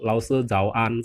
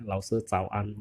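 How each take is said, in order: First: ZHAO with a voiced j sound; wrong pronunciation. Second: ZHAO said with a voiceless ts start, like cao; softer ZHAO AN, unvoiced initial; correct pronunciation. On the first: Teacher showing the wrong morning greeting, voiced initial. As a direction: slowly say ZHAO AN with a buzzing voiced start. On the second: Teacher modelling the right morning greeting, voiceless initial. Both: Shown as a demonstration. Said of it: "salah ya".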